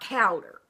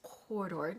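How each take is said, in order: First: The name has a Kentucky-style regional pronunciation. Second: The name has a more elegant standard pronunciation. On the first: The speaker calls it wrong. "we're not going to show our Kentucky here and pronounce that Cowder" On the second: The speaker calls it right. "Doesn't that sound more elegant anyway?"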